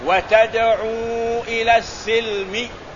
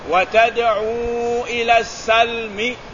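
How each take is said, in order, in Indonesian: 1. Vokal pertama kata terakhir adalah 'i'. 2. Vokal pertama kata terakhir adalah 'a'. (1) "dia membaca dengan kasrah sin" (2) "Kebanyakan qura yang tujuh membaca dengan patah la, patah sin"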